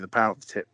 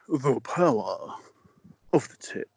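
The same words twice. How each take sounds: First: It is said flatly, without feeling. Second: It is said with more feeling.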